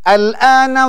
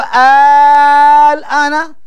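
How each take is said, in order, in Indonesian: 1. Vokal pembuka itu pendek. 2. Vokal pembuka itu dipanjangkan.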